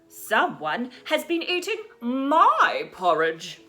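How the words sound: It is said in a middle-sized voice.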